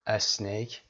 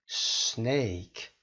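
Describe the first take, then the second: First: "اسنیک" with an e before the s, es-nake; wrong extra vowel. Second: "سنیک" slowly, beginning straight on a long s; snake-hiss start. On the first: Teacher shows Persian speakers' common mistake, added vowel. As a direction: start "اسنیک" on a short e vowel. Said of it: "اسنیک اشتباه هست". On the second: Teacher models snake correctly for students, hissed s. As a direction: hiss into "سنیک" with no vowel before it. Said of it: "فقط صدای ما رو در میاری در ابتدا". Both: Shown as a demonstration.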